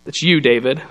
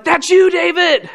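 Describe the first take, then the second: First: Calm confrontation. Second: High, drawn-out mock outburst; high-pitched gleeful "gotcha", acted out; jumping-up accusation. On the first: Retold or imitated. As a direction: say it calmly, no outburst. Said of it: "just looks at him calmly". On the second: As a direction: imitate someone jumping up and down to accuse. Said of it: "jumped up and down and was like".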